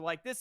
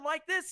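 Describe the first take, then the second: First: The voice is at normal pitch. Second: The voice is pitched somewhat high. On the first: "at a normal tone" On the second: "at a bit of a higher one"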